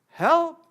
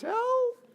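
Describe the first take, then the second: First: It is said in a normal voice. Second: It is said in a high-pitched voice.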